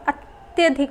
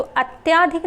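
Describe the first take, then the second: First: अत्यधिक with a short अ after त्य, ət-yə-dhik; correct form. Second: अत्याधिक said with a long आ after त्य, ət-yaa-dhik; wrong form अत्याधिक, long yaa in the middle. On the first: Teacher giving students the correct form, short yə in अत्यधिक. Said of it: "अत्यधिक होता है". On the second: Teacher showing students the wrong form, long yaa in अत्याधिक. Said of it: "अत्याधिक नहीं होता है". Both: Shown as a demonstration.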